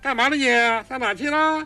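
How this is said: The voice resonates high in the head.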